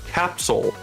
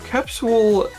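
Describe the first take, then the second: First: The last syllable sounds like 'sol'. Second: The last syllable has an 'oo' vowel. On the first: "like S O L" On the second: "capsule is an okay pronunciation because it kind of follows the letters"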